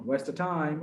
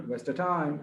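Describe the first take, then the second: The two takes are said the same way.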